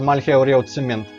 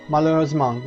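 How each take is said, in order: First: Every letter is sounded out as spelled. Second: It is said with normal French sounds.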